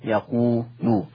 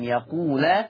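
First: The final l is followed by a u vowel. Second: The final l is followed by an a vowel. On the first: "بضم اللام" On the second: "بفتح اللام"

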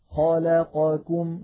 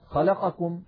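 First: All vowels in the word have equal length. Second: One vowel in the word is cut short. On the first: The speaker calls it right. "نسوي بينها" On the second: The speaker calls it wrong. "هكذا نخطفها"

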